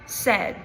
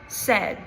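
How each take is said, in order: First: The vowel is a single short e sound. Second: The vowel is a single short e sound.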